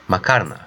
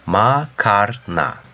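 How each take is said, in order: First: Said in the usual way. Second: "Makarna" slow, in three parts: ma, kar, na; syllable by syllable. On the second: Shown as a demonstration. Teacher demonstrates the word for learners, "Makarna" slowly syllable by syllable. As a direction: stretch and separate each syllable of "Makarna".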